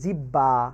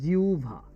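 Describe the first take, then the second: First: The middle is a doubled b sound. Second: The middle is a u glide then bh. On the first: The speaker calls it wrong. "আমরা উচ্চারণ করি জিব্বা" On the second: The speaker calls it right. "শুদ্ধ উচ্চারণ হচ্ছে জিউভা"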